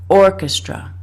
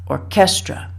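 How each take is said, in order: First: The stress is on the first syllable. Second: The stress is on the second syllable. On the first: The speaker calls it right. "The first syllable has to be stressed, punched" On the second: The speaker calls it wrong. "tend to emphasize the second syllable"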